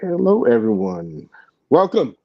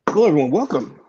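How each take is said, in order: First: It is said with low energy. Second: It is said with high energy.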